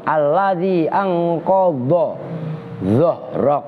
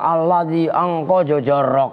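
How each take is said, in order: First: The emphatic consonants are articulated firmly and distinctly. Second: The last word is slurred into sounding like 'jorok'. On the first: The speaker calls it right. "Baca dod itu hati-hati. Kenceng" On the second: The speaker calls it wrong. "Baru baca alladzi angqadha jorok. Siapa yang jorok?"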